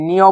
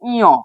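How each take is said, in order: First: The name begins with an n sound. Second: The name begins with a vowel sound. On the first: The speaker calls it wrong. "অনেকেই নিয় বলে" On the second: The speaker calls it right. "এটা হচ্ছে ইয়"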